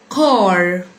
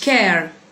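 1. الحركة مفخمة وعميقة، صوت 'ah' غليظ. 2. الحركة مرققة وضيقة، صوت شبيه بـ'ee'. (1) "بينطق مفخم قلبوزي شويه لما يجي بعديه حرف الار" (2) "مش كير"

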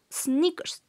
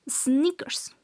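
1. La palabra empieza directamente con el sonido S. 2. La palabra empieza directamente con el sonido S.

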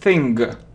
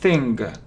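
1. Слово заканчивается слышимым твёрдым g. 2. Слово заканчивается слышимым твёрдым g.

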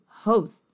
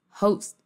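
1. O T final é engolido e mal se ouve. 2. O T final é engolido e mal se ouve.

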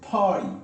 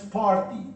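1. La R se omite y la vocal se alarga. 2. La R después de la primera vocal se pronuncia. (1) "es party, party. Y alargas un poquito más" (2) "Esto no es party"

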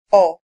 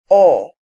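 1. La vocal es una o corta, al estilo español. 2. La vocal es un sonido o abierto, más largo. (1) "cómo yo reproduzco el sonido de la O del español" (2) "y este sonido"

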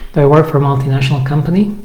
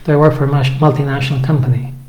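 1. Na końcu głos idzie w górę. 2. Na końcu głos idzie w dół. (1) "to intonacja idzie do góry"

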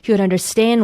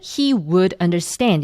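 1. 'would' 단어는 짧게 축약되어 발음돼요. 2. 'would' 단어는 완전하게 발음되고 강세를 받아요. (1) "굉장히 짧게 d, 이렇게 발음을 축약해 주셔야 돼요" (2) "he would understand 이렇게 되는 게 아니라 강세를 받지가 않죠"

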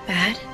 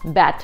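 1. Конечный согласный звонкий, d. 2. Конечный согласный глухой, как t. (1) "есть звонкая согласная d. Ее нужно произносить" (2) "Чаще всего мы их произносим одинаково"

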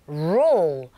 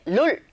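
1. 둥근 입술로 시작해서 L로 끝나요. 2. 평평한 한국식 음절로 발음해요. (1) "우 하시는 거여서 rule" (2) "rule 하실 때 룰 아니죠?"

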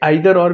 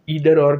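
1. आइदर की शुरुआत 'eye' ध्वनि से होती है। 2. आइदर की शुरुआत 'ee' ध्वनि से होती है। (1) "परंतु जो राइट प्रोनाउंसिएशन है वो आइदर और है।" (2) "इधर और भी बोला जाता है"

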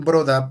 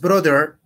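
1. Se dice con acento británico. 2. Se dice con acento estadounidense. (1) "es la pronunciación en británico" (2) "es brother"

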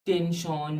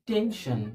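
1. শেষ অংশটি 'shon'-এর মতো উচ্চারিত হয়। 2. শেষ অংশটি 'shon' ও 'shan'-এর মাঝামাঝি উচ্চারিত হয়। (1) "আসলে শন নয়" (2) "দুটোর মাঝামাঝি"

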